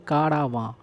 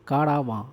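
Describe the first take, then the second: Both takes have the same delivery.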